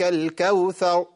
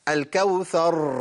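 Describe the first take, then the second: First: The final r is dropped. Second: The final r is trilled several times. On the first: "بيضيع الراء... ما جبتش راء" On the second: "بيكررها بقى"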